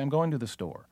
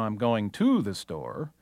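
First: The preposition 'to' is not stressed. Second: The preposition 'to' is stressed.

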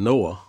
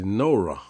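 First: The name ends in a vowel, without r. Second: The name ends with an r sound. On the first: This is how others say the name. "instead of saying Noah" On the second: This is how the speaker's community says the name. "we say Nora"

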